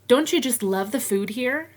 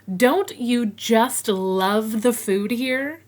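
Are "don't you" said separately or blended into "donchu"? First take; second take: blended; separate. First: "Don't you" blends into one "donchu" sound. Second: "Don't you" is said as two separate words.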